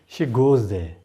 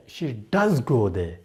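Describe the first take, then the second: First: Said in the usual way. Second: "does" given the main weight, then falling away; stress on "does". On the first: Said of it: "There is no emphasis". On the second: Shown as a demonstration. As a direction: punch the word "does". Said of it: "if I emphasize".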